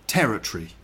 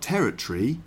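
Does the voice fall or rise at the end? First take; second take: fall; rise. First: The voice falls at the end like a statement. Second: The voice rises at the end like a question. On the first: It sounds like a statement. The speaker calls it right. "but territory" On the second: It sounds like a question. The speaker calls it wrong. "not territory, not a question"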